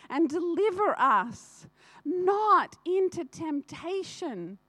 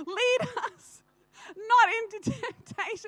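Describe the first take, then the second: First: Says deliver us not into temptation, slow and even, not noticing the slip; misquoted prayer line. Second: Corrected prayer line, crying. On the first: Shown as a demonstration. Reciting the Lord's Prayer to the congregation, slow and earnest. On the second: Real, not acted. Correcting her slip before the church, crying. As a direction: Lead us not into temptation, higher and choked with real tears. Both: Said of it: "What is that, right?".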